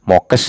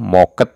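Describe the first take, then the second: First: The word ends with a kes sound. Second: The word ends with a ket sound. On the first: "Itu tidak mokes" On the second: "atau moket"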